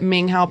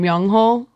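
First: The name is said as Minghao. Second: The name is said as Myungho. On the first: The speaker calls it wrong. "I'd been saying it wrong for so long" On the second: The speaker calls it right. "pronounces his name [name]"

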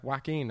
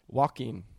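First: The first syllable sounds like 'whack'. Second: The first syllable sounds like 'wok'. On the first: "you give it a real whack"

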